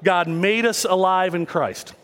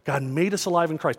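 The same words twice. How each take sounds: First: It is said big and loud. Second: It is said at normal, quieter volume.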